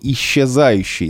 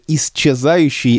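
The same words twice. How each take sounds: First: The сч is said as one long soft sound. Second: The сч is said as two separate sounds. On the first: "а не" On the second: "четко говорит"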